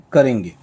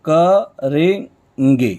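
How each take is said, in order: First: Said in the usual way. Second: करेंगे stretched very slowly, syllable by syllable; drawn out. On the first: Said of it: "ये हो जाएगा करेंगे". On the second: Shown as a demonstration. Teacher drawing out करेंगे so students hear each part. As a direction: spell out करेंगे slowly for the class. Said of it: "ठीक वैसे ही करेंगे".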